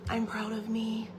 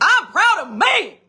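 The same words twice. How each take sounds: First: It is said at a normal, quiet volume. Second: It is screamed very loudly.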